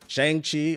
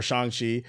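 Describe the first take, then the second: First: "Shang-Chi" with the first vowel as in "bang"; first pronunciation variant. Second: "Shang-Chi" with an open "ah", like "SHAHNG-chee"; alternative pronunciation. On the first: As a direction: say "Shang-Chi" with a flat-A "SHANG", higher pitched. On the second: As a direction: say "Shang-Chi" with the first vowel as in "father". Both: Shown as a demonstration. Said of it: "or Shang-Chi".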